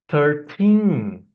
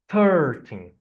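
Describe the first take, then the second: First: The stress is on the second syllable. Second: The stress is on the first syllable. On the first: The speaker calls it right. "if we put the stress in the teen, in the ending part of the number" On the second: The speaker calls it wrong. "the beginning is very strong"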